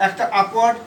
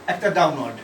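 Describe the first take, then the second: First: upward said with a rising tune; rising on upward. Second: downward said lower with a falling tune; falling on downward. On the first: Teacher voicing a stroke direction with a rising tune. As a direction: let upward climb up at the end. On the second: Teacher voicing a stroke direction with a falling tune. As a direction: drop the voice down through downward. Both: Shown as a demonstration. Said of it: "H এর দুটো function আছে".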